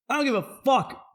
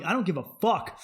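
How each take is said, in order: First: Higher, louder, punching fuck; louder repeat. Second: Said in the usual way. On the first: Real, not acted. Comedian repeating his defiance, louder and higher. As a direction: say it again with more heat. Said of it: "repeated louder". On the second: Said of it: "repeats louder".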